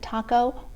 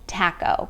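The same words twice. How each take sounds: First: It is said with a Spanish-style pronunciation. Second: It is said with a British-style pronunciation. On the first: The speaker calls it right. "Spanish-speaking people pronounce it taco" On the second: The speaker calls it wrong. "they pronounce taco taco"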